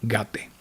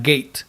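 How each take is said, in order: First: Gate said as two syllables, ga-te, with an open a; Sanskrit pronunciation. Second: Gate said the English way, rhyming with late; wrong pronunciation. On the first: Teacher showing students the right way, ga-te. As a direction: say Gate as gah-teh, not the English word. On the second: Teacher showing students the wrong way, English gate. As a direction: say gate as the English word, with the ay vowel. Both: Shown as a demonstration. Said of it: "not gate".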